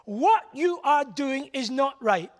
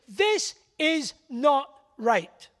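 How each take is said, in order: First: "What you are doing is not right" slow, leaning on "What"; stress on what. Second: "This is not right" very slow, weight on "This"; stress on this. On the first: Preacher pressing the congregation, stressed and slow. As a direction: hit "What" and let it fall, slowly. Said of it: "The first is an emphasis on morality". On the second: Preacher refusing to fudge it, slow and stressed. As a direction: land "This" hard and drag the rest. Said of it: "There's no fudging the issue". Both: Shown as a demonstration.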